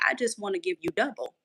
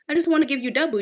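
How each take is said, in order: First: Softer voice for God's reassuring words; God speaking, soft. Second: Emphatic repeat. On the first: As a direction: say it gently, as God would. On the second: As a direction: punch it out the second time. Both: Retold or imitated. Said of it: "I heard God say".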